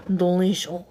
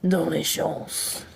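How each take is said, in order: First: Said in the usual way. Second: Slow belched-out word; burped word. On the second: Shown as a demonstration. Burping a word for chat on request. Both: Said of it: "Can you please burp a French word?".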